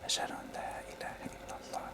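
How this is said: It is whispered under the breath.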